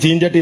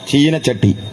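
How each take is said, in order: First: The vowel after 'cheen' is dropped. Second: The vowel after 'cheen' is kept. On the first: This is the everyday local way of saying it. "എന്റെ നാട്ടിലൊക്കെ ചീൻചട്ടി എന്നാ പറയാ" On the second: This is the polished way used when asked at a speech. "അവരൊന്ന് നന്നാക്കി പറയും"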